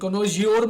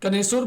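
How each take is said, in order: First: The middle consonant is a 'j' sound. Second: The middle consonant is an 's' sound. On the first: The speaker calls it wrong. "कनोजियोर मत बोलना" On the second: The speaker calls it right. "कनेसुर बोलते हैं इसको"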